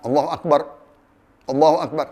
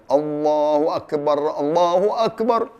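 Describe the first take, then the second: First: It is said with a breath between phrases. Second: It is said in a single breath.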